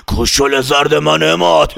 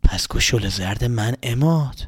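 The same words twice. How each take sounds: First: Slow, eerie voice through a laugh; slow cackling hag voice; witchy old woman. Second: Said in the usual way. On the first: Acted. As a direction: menace the boy like a witch. Fakhri khanum voiced menacing.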